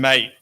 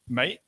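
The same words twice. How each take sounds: First: It sounds cold and hostile. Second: It sounds like a doubtful question. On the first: I don't like you. "mate is I don't like you" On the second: Are you sure? "like are you sure, is a question"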